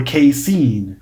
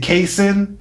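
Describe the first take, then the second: First: "casein" as kay-SEEN; "casein" ending like "seen"; second pronunciation option. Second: "casein" as KAY-sin; "casein" ending like "sin"; first pronunciation option. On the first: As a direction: say "casein" with a long ee at the end. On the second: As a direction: say "casein" with a short i at the end. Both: Shown as a demonstration. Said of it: "pronunciation is not my forte".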